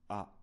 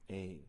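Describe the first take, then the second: First: The vowel is an open 'ah' sound. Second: The vowel is a gliding 'ay' sound. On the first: The speaker calls it right. "this letter is pronounced a" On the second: The speaker calls it wrong. "instead of a"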